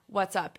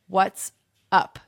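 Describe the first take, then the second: First: It sounds relaxed and friendly, inviting chat. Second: It sounds curt and impatient, demanding an answer. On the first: The speaker wants friendly small talk. "It's not "What's up?"" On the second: The other person should state their purpose immediately. "Tell me what you want right now"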